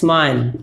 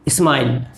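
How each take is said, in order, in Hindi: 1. शब्द सीधे s की आवाज़ से शुरू होता है। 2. s से पहले एक अतिरिक्त स्वर आता है। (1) "सही है स्माइल" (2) "ऐसे नहीं, ये गलत है"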